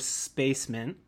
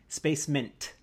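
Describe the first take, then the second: First: The word ends without a T sound. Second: The word ends with a clear T sound. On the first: The speaker calls it wrong. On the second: The speaker calls it right.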